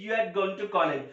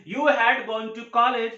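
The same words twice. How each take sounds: First: "you had" merged as you'd, h dropped; contraction. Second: Said in the usual way. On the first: Shown as a demonstration. Teacher gives students the short version, "you had" contracted. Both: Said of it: "तो आप बोल सकते हैं".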